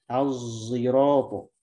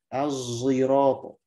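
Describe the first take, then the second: The two takes are said the same way.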